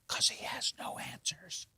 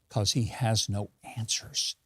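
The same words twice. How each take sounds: First: It is said in a whisper. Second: It is said in a normal full voice.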